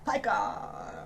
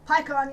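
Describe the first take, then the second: First: It is said in an American accent. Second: It is said in the speaker's usual accent.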